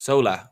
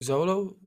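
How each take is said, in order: First: Correcting it to "Zola", final vowel relaxed to uh; "Zola" said as ZOH-luh, last syllable unstressed schwa; corrected name. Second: "Zolo" with a long o at the end, ZOH-loh; misnaming him "Zolo", ending on an oh sound; "Zolo" said as ZOH-loh, final vowel rounded like "go"; wrong name. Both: Real, not acted. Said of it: "That's his name".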